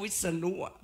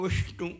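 First: Said in the usual way. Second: "วิษณุ" with a hushing sh for ษ; Sanskrit-style sibilant. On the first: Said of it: "เราก็ออกว่า". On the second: Shown as a demonstration. Lecturer showing what Thais never say, "วิษณุ" with sh. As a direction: say "วิษณุ" as Vishnu, sh in the middle. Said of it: "เราไม่เคยออกว่า".

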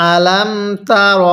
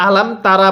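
First: "আলাম তার" slowly, with a rounded "ro" ending; correct recitation. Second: "আলাম তারা" at talking speed, ending in "raa"; wrong reading. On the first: Teacher shows correct reading, slow "আলাম তার" with rounded ending. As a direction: draw out "আলাম তার", ending "ro" instead of "raa". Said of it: "তাহলে কিভাবে পড়তে হবে". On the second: Teacher shows a common mistake, "আলাম তারা" ending in "raa". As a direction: say "তারা" with a plain open final "aa". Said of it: "এরকমভাবে পড়ি পড়াটা সহি শুদ্ধ হবে না". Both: Shown as a demonstration.

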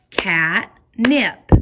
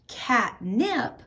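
First: Cat and nip punched loudly apart; catnip in syllables. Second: Said in the usual way. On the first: Shown as a demonstration. Teacher showing two parts of a word, catnip split. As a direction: break catnip into two strong beats.

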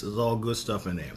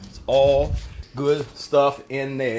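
First: Said in the usual way. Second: ALL GOOD STUFF spaced out slowly; slow, weighty stress on "good stuff"; emphatic repeat. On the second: Real, not acted. Repeats his answer for emphasis.

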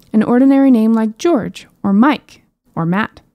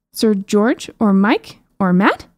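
First: Said in the usual way. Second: Slow, drawn-out rising question; lightly voiced princess, baffled by the names; puzzled princess. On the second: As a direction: princess echoes the names back, slowly and puzzled.

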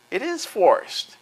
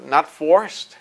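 First: Slow "It is forced" with "is" pitched high and falling; stress on is. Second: Said in the usual way. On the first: Real, not acted. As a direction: slowly hammer the word "is" in "It is forced". Rebutting "not forced" with emphasis.

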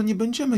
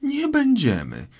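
First: Put-on raised, polite girlish offer; mild, conciliatory girl's voice; placating Alice. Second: Very high, outraged squeal; shrill, affronted mousy shout; indignant cry. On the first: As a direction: soothe the offended mouse. Alice placating the offended mouse. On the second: A narrator's reading. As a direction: throw the words back as a furious mouse. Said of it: "krzyknęła mysz, trzęsąc się".

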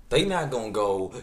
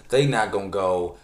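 The two takes are said the same way.

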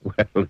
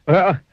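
First: Said in the usual way. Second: Higher and louder, emphatic well; a cheerful, louder "well". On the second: Acted. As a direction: lift the second "well" up high and louder. Repeat said bigger.

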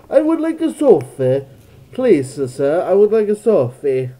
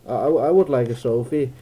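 First: High, loud mock-British request; put-on British, pitched way up; hammed-up British accent. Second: Said in the usual way. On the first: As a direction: plead in a silly British voice. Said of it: "I can't do British accents anymore".

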